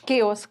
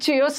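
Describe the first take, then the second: First: The word begins with a 'k' sound. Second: The word begins with a 'ch' sound. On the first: The speaker calls it right. "ये C H S केओस" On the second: The speaker calls it wrong. "इसको चेओस मत पढ़ना ये चेओस नहीं है"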